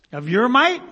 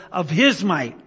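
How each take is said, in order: First: Mock wrong reading. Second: Of HIS might, his stressed as the fix; HIS might, not your; corrected reading. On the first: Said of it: "No, he says of, of his might". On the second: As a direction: correct the word his firmly. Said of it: "No, he says of". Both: Shown as a demonstration.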